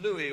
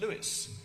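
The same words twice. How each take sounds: First: The name is pronounced the French way. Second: The name is pronounced the traditional English way.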